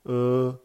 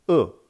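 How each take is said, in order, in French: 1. Elle se prononce avec le premier ton. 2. Elle se prononce avec le quatrième ton.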